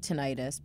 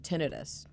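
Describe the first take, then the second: First: The ending sounds like '-itis'. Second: The ending does not sound like '-itis'. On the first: The speaker calls it wrong. "she doesn't say tinnitus because itis usually means an inflammation" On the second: The speaker calls it right. "that's kind of the pronunciation"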